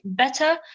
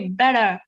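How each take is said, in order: First: The T sound is pronounced clearly. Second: The T sound is swallowed and softened.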